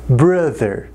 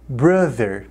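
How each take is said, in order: Both takes have the same delivery.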